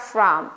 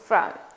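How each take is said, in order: First: The word is said with a full, clear vowel. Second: The word is said with a weak, reduced vowel. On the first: The speaker calls it wrong. "it's not from" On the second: The speaker calls it right. "it's from, reduction"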